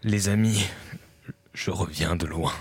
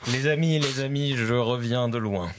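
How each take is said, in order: First: It is said dramatically, sounding in agony. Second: It is said plainly, without sounding in agony. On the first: The speaker calls it right. "On dirait la voix d'un comédien de doublage" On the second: The speaker calls it wrong. "on sent pas que je suis assez à l'agonie"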